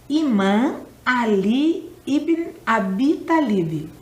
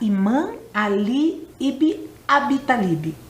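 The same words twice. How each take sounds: First: The name is said more slowly. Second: The name is said at a normal speed.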